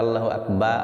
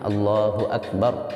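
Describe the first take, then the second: First: The final r sound is dropped. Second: The final r sound is pronounced. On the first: The speaker calls it wrong. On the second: The speaker calls it right.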